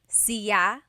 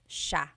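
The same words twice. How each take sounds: First: The word begins with a plain s sound. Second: The word begins with a sh sound. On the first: This is how some other regions say it. "Some regions say siya" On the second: This is how the central Luzon Tagalog region says it. "The S I Y combination makes the sh sound in Tagalog"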